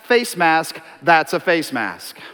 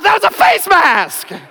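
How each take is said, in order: First: It is said in a calm, mild tone. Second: It is said in a loud, angry tone. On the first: The speaker calls it wrong. "in this very tone" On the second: The speaker calls it right. "I said it differently than that. There may or may not have been a vein busting out"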